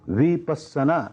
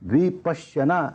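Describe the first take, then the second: First: The middle consonant is a doubled 's'. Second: The middle consonant is a 'shy' cluster. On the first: This is the Pali form of the word. "ये पाली उच्चारण है" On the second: This is the Sanskrit form of the word. "ये इसका संस्कृत उच्चारण है"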